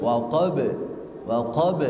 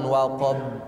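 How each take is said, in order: First: "Waqab" with the b released at once; bounced B. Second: "waqab" with lips held shut on b before release; doubled B. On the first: Teacher drills pupil, "Waqab" with bouncing b. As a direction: rebound off the final b of "Waqab". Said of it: "dipatukan B". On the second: Teacher showing mistake, "waqab" with held b. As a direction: press and hold the b of "waqab". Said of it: "Tidak ada tasdid". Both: Shown as a demonstration.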